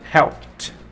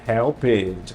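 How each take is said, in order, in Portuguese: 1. O final é um som de t simples. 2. O final não é um som de t simples. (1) "eu falo helped" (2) "eu não falo"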